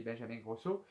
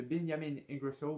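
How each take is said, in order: First: Benjamin Grosso said the French way, Benjamin with a nasal ending; French pronunciation. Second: Benjamin Ingrosso in English style, Benjamin like Benjamin; English-style name. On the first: ([name] prononcé à la française) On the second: ([name] prononcé à l'anglaise) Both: Shown as a demonstration. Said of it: "je crois qu'on dit [name]".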